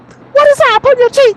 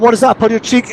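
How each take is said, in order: First: It is said in a mocking, comic way. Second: It is said in a plain, serious way.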